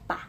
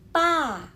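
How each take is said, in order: First: The syllable is quick, light and cut short. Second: The syllable is heavy and drawn out. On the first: "yang tidak ada nada" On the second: "lebih berat, lebih lama gitu, lebih panjang"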